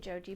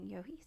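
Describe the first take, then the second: First: The name begins with a J sound. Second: The name begins with a Y sound. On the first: "I used to say Joji" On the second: "I heard some people saying Yohi"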